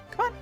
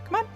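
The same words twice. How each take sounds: The two takes are said the same way.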